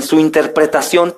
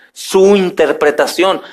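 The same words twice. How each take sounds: First: Said in the usual way. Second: SU set apart slowly, then interpretación; slow, pointed emphasis on SU; stress on SU. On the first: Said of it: "ojo, su interpretación". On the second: Real, not acted. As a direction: lean deliberately on the word SU. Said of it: "ojo, su interpretación, no la interpretación".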